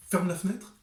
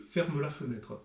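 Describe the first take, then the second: First: «Ferme la fenêtre» Parisian style, final e of «Ferme» dropped; Parisian accent. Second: «ferme la fenêtre» in a southern French accent, «ferme» sounded as «fermeu». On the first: Author showing viewers the Parisian version, clipped. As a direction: clip «Ferme» short, Parisian. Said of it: "dans le premier cas". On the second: Author contrasting it with Paris, southern French accent. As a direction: let the final e ring in «ferme», southern style. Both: Shown as a demonstration.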